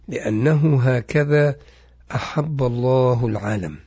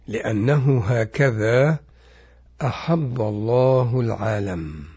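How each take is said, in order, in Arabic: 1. تُقرأ الجملة بوتيرة عادية. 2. تُقرأ الجملة ببطء وتأنٍّ.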